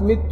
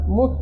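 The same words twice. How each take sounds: First: The first vowel is i, giving mittu. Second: The first vowel is u, giving muttu. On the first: The verb follows the pattern of khiftu. "فإذا كانت مت فإن الفعل من فعل، كما يقال خاف يخاف خفت" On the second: The verb follows the pattern of qultu. "وإذا قيل مت فمعناه أن هذا الفعل مأخوذ من فعل، كما يقال قال يقول قلت"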